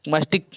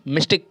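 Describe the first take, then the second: First: माइस्टिक with first syllable "mice". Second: मिस्टिक with first syllable "miss"; Y as short I. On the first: Teacher trying out mystic, माइस्टिक with an "ai" vowel. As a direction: say माइस्टिक as "my-stik". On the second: Teacher answering how to say mystic, मिस्टिक with short i. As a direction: say मिस्टिक as "mis-tik". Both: Shown as a demonstration. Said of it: "इसको क्या बोलेंगे".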